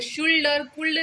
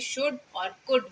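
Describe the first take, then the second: First: An L sound is heard in both words. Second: No L sound is heard in either word. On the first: The speaker calls it wrong. "शुल्ड और कुल्ड नहीं बोलना है।" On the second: The speaker calls it right. "एल जो है उसमें silent रहता है"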